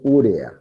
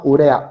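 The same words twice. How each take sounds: First: The stress is on the first syllable. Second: The stress is on the second syllable. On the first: The speaker calls it wrong. "No sé por qué dicen urea si no tiene tilde en la U" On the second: The speaker calls it right. "Eso se llama urea"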